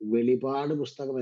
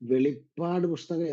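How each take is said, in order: First: The middle p sound is short and single. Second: The middle p sound is long and doubled. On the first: The speaker calls it right. "അതാണ് അതിന്റെ ശരിയായിട്ടുള്ള നാമം" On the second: The speaker calls it wrong. "വെളിപ്പാട് പുസ്തകം എന്നല്ല ഇതിനെ വിളിക്കുന്നത്"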